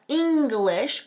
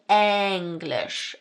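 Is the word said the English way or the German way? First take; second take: English; German. First: It is said like the English word English. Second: It is said like the German word Englisch. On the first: The speaker calls it wrong. "not English" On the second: The speaker calls it right. "but English. English, if you really want to say this properly"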